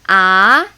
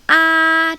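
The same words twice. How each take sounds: First: The pitch rises like a doubtful question. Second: The pitch stays high and level. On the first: "I call it doubting tone. Think about you're doubting something. Like really?" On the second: "The tone one is ah, it's like opera. just keep it there, very high"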